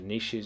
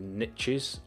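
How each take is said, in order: First: The word is said without rhyming with riches. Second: The word is said to rhyme with riches. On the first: It is the ordinary everyday pronunciation. "niches is how normal people pronounce it" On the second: It matches the rhyme of the saying. "there's a saying that the riches are in the niches"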